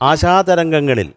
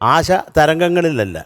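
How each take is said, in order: First: The two words are run smoothly together. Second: The two words are said apart, not joined. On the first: The speaker calls it right. "ചേർത്ത് പറയണം" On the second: The speaker calls it wrong.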